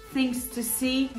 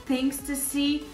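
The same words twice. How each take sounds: The two takes are said the same way.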